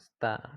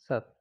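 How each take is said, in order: First: The s and t run together before the vowel. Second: A vowel comes before the t sound. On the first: The speaker calls it right. "but sta" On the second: The speaker calls it wrong. "I pronounced it wrong. It's not sattva"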